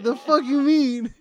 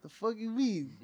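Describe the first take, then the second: First: Loud, high, drawn-out mock outburst; incredulous mom. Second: Higher, softer mock disbelief; incredulous mom. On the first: Repeating Mom's reaction to the uncle, loud mock disbelief. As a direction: blow up Mom's baffled reaction, slower and louder. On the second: Retelling Mom's reaction to the uncle, mock incredulous. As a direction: quote Mom's baffled challenge, pitched up.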